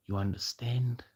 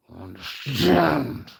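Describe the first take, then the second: First: Said in the usual way. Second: Slow, loud, harsh roar; menacing roar. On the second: Real, not acted. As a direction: roar it, dragging out the last word. Threat repeated with force, knife in hand.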